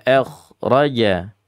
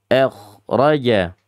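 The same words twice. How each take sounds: Both takes have the same delivery.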